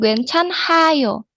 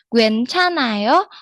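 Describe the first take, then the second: First: An h sound is heard after the n. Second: The h sound is silent after the n. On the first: The speaker calls it wrong. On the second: The speaker calls it right. "dibacanya hanya N-nya saja"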